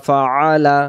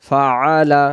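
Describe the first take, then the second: No difference in how they are said.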